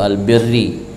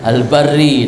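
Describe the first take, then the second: First: The first vowel is an i sound. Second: The first vowel is an a sound. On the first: The speaker calls it wrong. "jangan nanti orang baca al-birru atau al-birri" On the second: The speaker calls it right. "dibaca di al-bar al-barri dengan patah"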